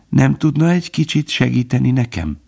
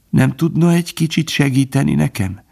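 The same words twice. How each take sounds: First: Calm, composed repeat of the plea; calm, not cheerful; as if healthy. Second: High, feeble plea for help; a dying hare's plea; pleading plea. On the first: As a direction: ask again evenly, as if nothing were wrong. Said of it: "Úgy beszélt, mintha egészséges volna". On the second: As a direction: ask weakly, wounded. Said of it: "kérdezte". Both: A narrator's reading.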